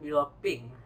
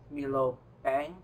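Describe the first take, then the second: First: The second word has an 'ee' vowel. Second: The second word has an 'eh' vowel. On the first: This is how people in this place say it. "They say it here Milo Ping" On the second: This is the familiar way of saying it. "It's like Milo Peng, which means iced Milo"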